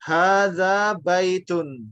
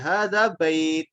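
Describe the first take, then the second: First: The last word is read fully with its -un ending. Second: The last word ends without its final -un ending. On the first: This is the full reading used while learning. "kita baca lengkap" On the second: This is the pausal form used when stopping. "sebetulnya disukun karena kita berhenti"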